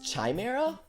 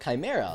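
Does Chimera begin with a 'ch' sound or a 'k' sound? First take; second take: ch sound; k sound. First: The word begins with a 'ch' sound. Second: The word begins with a 'k' sound. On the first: "he pronounces his own Mei with a ch, as in China" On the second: "it's literally just a misspelling of Chimera"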